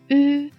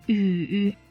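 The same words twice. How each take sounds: First: The pitch stays high and level. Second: The pitch dips low, then rises.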